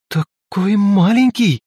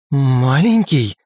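First: Slow, higher wondering question on маленький; drawn out in disbelief: маленький; surprised. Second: Slow growled word. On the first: Velga amazed the great god is so small, slow surprise. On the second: Lika growling at Velga for calling the god small, menacing. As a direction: drag out Маленький slowly, menacing. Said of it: "зарычала Лика". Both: A narrator's reading.

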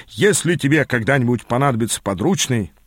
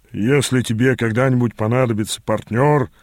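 First: Said in the usual way. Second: Slight weight on the final word "партнёр"; correcting. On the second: A narrator's reading. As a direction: correct the line by leaning on "партнёр". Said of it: "поправил".

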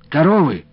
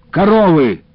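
First: «Коровы?» asked with a rising, puzzled tone; puzzled question. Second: «Коровы!» snapped loud and high, falling; impatient retort. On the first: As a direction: ask it back in confusion. Confused question at the desk. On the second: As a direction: fire it back impatiently. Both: A narrator's reading.

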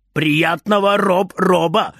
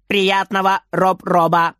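First: Grunting robot. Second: Beaming. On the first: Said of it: "кряхтит большой робот". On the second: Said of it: "сияет маленький робот". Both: A narrator's reading.

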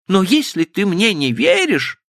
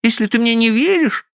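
First: Put-on high girlish voice trailing off and breaking. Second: Put-on high girlish voice, firm fall; hurt ultimatum. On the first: Stephanie's voice breaks off as she pleads with Frank. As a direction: let the words die, voice breaking. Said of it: "Голос её оборвался". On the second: Stephanie warns Frank she will leave, high voice. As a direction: put it to him as a threat.

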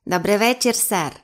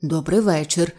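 First: Creaky creature voice; рипучий голос. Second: Lower, taken-aback reply; сторопіло. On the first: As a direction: greet politely in a small creaky voice. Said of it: "промовив рипучим голосом". (рипучий голос саламандри) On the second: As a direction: answer a mystery voice, dumbfounded. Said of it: "сторопіло відповів директор". (сторопіла низька відповідь) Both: A narrator's reading.

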